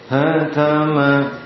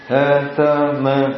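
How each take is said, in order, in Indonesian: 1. Diucapkan dengan bunyi masuk ke hidung. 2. Diucapkan terbuka, tanpa udara keluar lewat hidung. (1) "Ini masuk di hidung"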